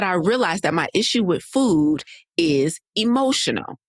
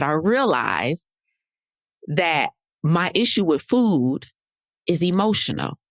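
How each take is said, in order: First: Said in the usual way. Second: Slow, with long pauses before each phrase; slow dramatic reveal. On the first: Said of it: "She said". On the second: Retold or imitated. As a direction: let each phrase land after a pause, "emotional" falling. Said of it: "now this is the part, y'all".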